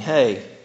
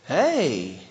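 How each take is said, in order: First: It sounds casual and routine, without real interest. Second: It sounds tender and affectionate, like romantic interest.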